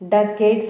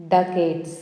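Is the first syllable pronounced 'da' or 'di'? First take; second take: da; da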